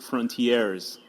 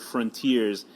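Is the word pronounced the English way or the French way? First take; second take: French; English. First: It is pronounced like a French word. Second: It is pronounced as the plain English word. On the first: The speaker calls it wrong. "I would always pronounce it frontiers because uh, I thought it was French" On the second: The speaker calls it right. "it's just the word frontiers"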